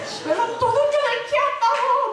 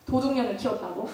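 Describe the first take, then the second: First: High-pitched, hammed-up crying of a mother; loudly lamenting in a high, put-on sob; mock wailing. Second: Said in the usual way. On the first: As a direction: imitate mom wailing for everyone to hear. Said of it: "막 들으라고 막 울어요". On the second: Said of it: "막 울어요, 엄마가".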